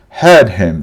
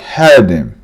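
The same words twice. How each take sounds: First: The h in him is clearly pronounced. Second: The h in him is dropped and linked.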